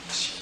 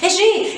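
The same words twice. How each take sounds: First: It is called very quietly, almost silently. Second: It is called in a great hurry.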